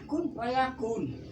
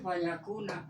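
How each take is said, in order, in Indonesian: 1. Kata fayakun berakhir dengan konsonan n. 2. Kata fayakun berakhir dengan vokal a. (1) "itu salah" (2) "harus dibaca"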